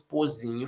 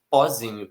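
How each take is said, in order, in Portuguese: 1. A primeira vogal é fechada. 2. A primeira vogal é aberta. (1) "não falamos pozinho" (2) "falamos pozinho ... com essa vogal aberta"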